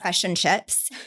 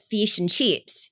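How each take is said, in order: First: It is said with a New Zealand accent. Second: It is said with an Australian accent. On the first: "like New Zealand, you'll say fish, like"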